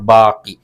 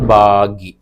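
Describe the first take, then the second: First: The middle consonant is a k sound. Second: The middle consonant is a g sound. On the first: This is the standard form of the word. "അതിന്റെ ശരിയായ വാക്കാണ് ബാക്കി" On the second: This is the everyday spoken form. "സംസാരത്തിൽ വരുമ്പോൾ ഈ ക എന്ന സൗണ്ട് ഗായാകും"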